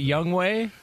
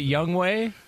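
First: The second part sounds like 'way'. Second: The second part sounds like 'way'.

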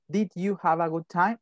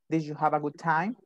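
First: The question is said slowly, word by word. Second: The question is said fast, words run together. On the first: The speaker calls it wrong. "No es" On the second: The speaker calls it right. "es rápido, así como lo estoy diciendo"

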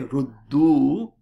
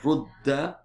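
First: The word ends with a 'u' vowel. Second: The word ends with an 'a' vowel. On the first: "somebody would say ruddu. U instead of a" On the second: "Instead of rudda mali"

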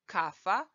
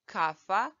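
First: The word has an f sound in the middle. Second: The word has an f sound in the middle.

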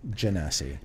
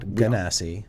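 First: The first G is soft, like a J. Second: The first G is hard, as in go. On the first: The speaker calls it right. "pronounce it with a J. Soft G" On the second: The speaker calls it wrong. "Not Genasi"

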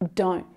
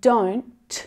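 First: The final T is stopped short without air release. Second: The final T is released with a puff of air. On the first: "So that sound is stopped short" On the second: "I'm releasing the air"

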